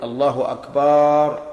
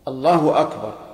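First: The vowel after the b in Akbar is lengthened. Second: No vowel is lengthened anywhere. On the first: The speaker calls it wrong. "يمد الباء" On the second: The speaker calls it right. "يشترط أن تكون بهذا اللفظ"

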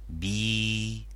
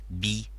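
First: The vowel is long. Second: The vowel is short. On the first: "les voyelles longues" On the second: "la kasra"

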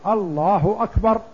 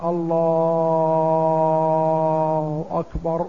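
First: It is said clearly, with short vowels. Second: It is said with vowels drawn out long.

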